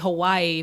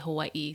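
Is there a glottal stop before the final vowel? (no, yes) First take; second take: no; yes. First: The final vowels run together without a catch. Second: A glottal catch separates the final vowels. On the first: The speaker calls it wrong. "People say Hawaii" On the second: The speaker calls it right. "but it's really Hawaii"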